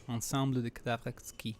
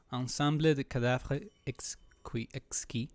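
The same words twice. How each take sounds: First: Ensemble de Cadavres Exquis in bad French; broken French. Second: Hesitant, slow broken French. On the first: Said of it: "Sorry about my bad French". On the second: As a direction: Ensemble de Cadavres Exquis sounded out unsure. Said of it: "I guess". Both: Real, not acted.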